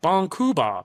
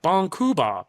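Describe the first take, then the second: First: It is said in Japanese-style blocked syllables. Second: The same.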